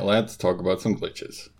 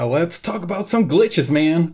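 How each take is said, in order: First: It is said with moderate, toned-down excitement. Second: It is said with over-the-top excitement.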